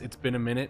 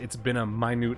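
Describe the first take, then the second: First: Minute is pronounced as the ordinary time word. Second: Minute is pronounced as the word meaning small. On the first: It has been a long while. "text-to-speech might have read it as" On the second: The greeting is tiny. "but it read it as, ... Like a tiny howdy"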